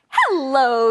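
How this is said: It is said in a friendly way.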